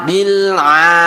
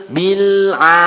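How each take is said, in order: The two takes are said the same way.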